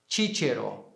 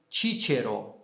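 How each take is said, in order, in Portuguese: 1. O primeiro C soa como CH. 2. O primeiro C soa como CH.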